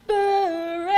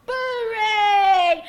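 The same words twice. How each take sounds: First: Huge, long-held chanted bellow; high, very loud, sustained divine cry; thunderous heavenly call. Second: High, very loud winning holler; full-voiced victory cry; triumphant shout. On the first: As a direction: boom it out as if shaking the world's roots. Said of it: "a voice call out loud enough to shake the very roots of the world". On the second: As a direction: bellow the winning call, drawing out the last word. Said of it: "Boo shouted out". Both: A narrator's reading.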